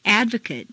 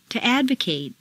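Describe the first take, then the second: First: "Advocate" ending in weak "-kut"; reduced ending. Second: "advocate" ending in long "-KATE"; full A ending. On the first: Teacher models "Advocate" with reduced final vowel. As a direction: shrink the last vowel of "Advocate". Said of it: "in an adjective is completely reduced". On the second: Teacher models verb "advocate" with full final A. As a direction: open out the last A of "advocate". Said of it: "it's a full A sound". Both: Shown as a demonstration.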